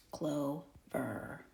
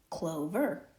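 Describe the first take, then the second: First: "clover" split into CLO, then VER; sounded out syllable by syllable. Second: Said in the usual way. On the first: Shown as a demonstration. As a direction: say "clover" slowly in two parts, CLO ... VER. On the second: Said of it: "that's how we get the word".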